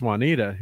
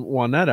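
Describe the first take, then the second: First: Juanita said "wah-NEE-duh"; long EE in Juanita; local pronunciation. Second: Juanetta said "wah-NET-uh"; short E, stressed NET in Juanetta; newcomers' pronunciation. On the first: Correcting the kid's street name, local pronunciation. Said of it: "you know, that's Juanita". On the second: Quoting a kid naming his street, newcomers' pronunciation. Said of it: "he's like". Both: Retold or imitated.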